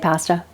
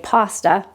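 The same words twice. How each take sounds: First: The word is said with a Canadian accent. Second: The word is said in a non-Canadian way. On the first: "I say pasta because I'm Canadian" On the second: "lots of people say pasta"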